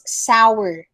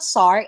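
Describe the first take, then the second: First: "sour" as SOW-er; W glide in "sour", sow-er; two syllables. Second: "sour" as sar, one syllable; wrong pronunciation. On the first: Teacher correcting the error, sow-er in two syllables. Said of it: "Two syllables". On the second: Teacher repeating the student's mistake, sar. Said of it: "It's not sour". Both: Shown as a demonstration.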